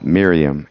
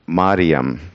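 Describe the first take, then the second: First: The first vowel is an 'i' sound. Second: The first vowel is an 'a' sound. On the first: This is the Old Testament form of the name. "we have it as more like an I vowel" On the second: This is the Greek form of the name. "in the Greek it would be more pronounced like Mariam, like that"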